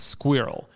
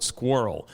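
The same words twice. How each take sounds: First: Squirrel said the British way, two syllables, skwi-rel. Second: Squirrel said the American way, one syllable, r-coloured like skwurl. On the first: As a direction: say squirrel like a British teacher, clipped and crisp. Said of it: "No, it should be". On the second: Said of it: "I'm explaining to them the word squirrel". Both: Retold or imitated.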